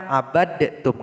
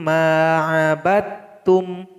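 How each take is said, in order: First: The d is heard separately before the t. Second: The d merges fully into a doubled t. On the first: The speaker calls it wrong. "Salah kalau dibaca abadtum" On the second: The speaker calls it right. "dal ini mesti digabung ke dalam huruf ta"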